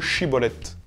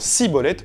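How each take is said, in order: First: The word begins with an sh sound. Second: The word begins with an s sound. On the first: It is how the other tribe says the word. "plutôt que chibolette" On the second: It gives away that the speaker is from one tribe. "les premiers disant cibolette"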